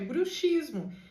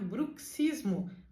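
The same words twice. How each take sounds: First: The x is pronounced as one single sound. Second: The x is pronounced as ks. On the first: It means things relating to witches. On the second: It means grinding the teeth.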